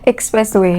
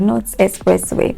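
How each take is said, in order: First: The x is said as k plus s. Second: The x is said without a k sound. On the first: The speaker calls it right. "it's expressway" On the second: The speaker calls it wrong.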